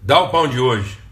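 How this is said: It is said as a demand.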